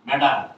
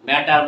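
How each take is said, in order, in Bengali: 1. মাঝের ব্যঞ্জনটি একটি নরম d শব্দ। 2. মাঝের ব্যঞ্জনটি একটি স্পষ্ট t শব্দ। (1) "ড হবে" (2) "বলবো না"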